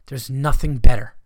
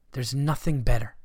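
First: There's nothing better said loudly, with the weight on "nothing"; loud emphatic repeat. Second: Said in the usual way. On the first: Shown as a demonstration. Comic telling his listeners, emphatic loud declaration. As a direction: punch "nothing" hard and loud, falling at the end.

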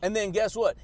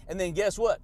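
Both takes have the same delivery.

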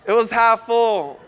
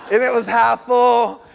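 First: "half" leaned on, words drawn out slowly; slow down and land hard on "half"; "It was half full" repeated slowly, "half" stressed. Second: Said in the usual way. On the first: Shown as a demonstration.

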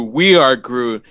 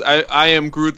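First: Slow and heartfelt; slow heartfelt delivery. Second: Said in the usual way. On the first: Shown as a demonstration. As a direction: let each word land with feeling. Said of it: "those three words gives you that type of feeling". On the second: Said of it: "the dude says".

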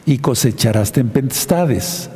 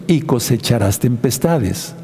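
No difference in how they are said.

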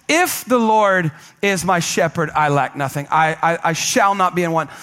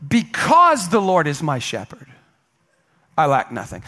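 First: "If" stressed as a condition; "If" weighted, then "I lack nothing" settled low. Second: "Because" stressed, falling, the rest read calmly; "Because" weighted, "I lack nothing" dropped low. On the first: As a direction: lean on "If" to make it conditional. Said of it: "or if we were to read it like this". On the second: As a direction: lean on "Because" as the reason. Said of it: "if we were to read Psalm twenty-three like this". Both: Shown as a demonstration.

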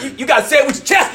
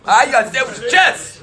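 First: Shouting. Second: Said in the usual way. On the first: Real, not acted. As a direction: shout it out with energy. Urging the crowd to speak up.

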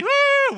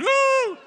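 First: High loud whoop; whooped demo cry; demo woo. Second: High loud whoop; crowd-prompting whoop. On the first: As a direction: show them the woo. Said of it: "You have to say". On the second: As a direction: lead the crowd in a woo. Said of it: "Come on, come say it". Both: Shown as a demonstration.

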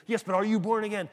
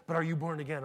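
First: Louder, higher pestering repeat; insistent. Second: Said in the usual way. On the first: Retold or imitated. Street preacher presses a fellow believer, insistent. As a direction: imitate a zealot pressing the question.

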